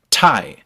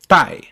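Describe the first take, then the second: First: The t is released with a puff of air. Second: The t is released without a puff of air. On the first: "You can feel that puff" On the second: "you wouldn't make that puff of air at all"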